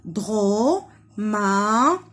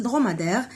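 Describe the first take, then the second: First: Dromadaire as "dro... ma... dai... re", very slow; syllable by syllable. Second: Said in the usual way. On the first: Shown as a demonstration. Teacher tapping syllables for children, Dromadaire broken in four. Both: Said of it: "on tape les syllabes".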